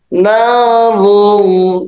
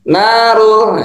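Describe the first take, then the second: First: The L sound is thick and heavy. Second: The L sound is thin and light. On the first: The speaker calls it right. "ditebalkan ya" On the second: The speaker calls it wrong. "itu tipis"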